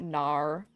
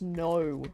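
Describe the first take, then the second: First: The word ends with an R-like sound. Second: The word ends with a breathy H-like sound. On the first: The speaker calls it wrong. "not N A U R. We don't have like the, the R sound" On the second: The speaker calls it right. "it's an H sound at the end, like N O H"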